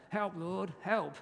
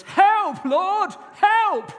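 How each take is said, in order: First: Said in the usual way. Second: Desperate high shout of help; shouted prayer. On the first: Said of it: "favourite prayer of my senior pastor". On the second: Shown as a demonstration. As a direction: cry it out at the top of your voice. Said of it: "It goes".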